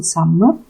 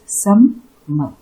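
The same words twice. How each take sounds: First: Said in the usual way. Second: "summer" said as two separate beats, sum-mer; sum, then mer, sounding out "summer"; split into syllables. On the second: Shown as a demonstration. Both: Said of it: "there are two syllables".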